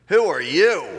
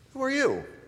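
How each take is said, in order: First: The question sounds challenging and confrontational. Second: The question sounds casual and friendly. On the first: A challenge to the person's right to be there. "Change the inflection ... the defensive hairs on the back of our neck stand up right away" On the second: A simple request for the person's name. "your answer would begin with something like, well, I'm [name]. Nice to meet you"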